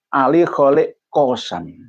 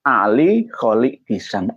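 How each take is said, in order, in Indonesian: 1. Vokal pertama kata terakhir adalah 'o'. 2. Vokal pertama kata terakhir adalah 'i'. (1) "sudah kadung mendengar masuk dalam memori kita" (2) "Sebenarnya itu Kisam"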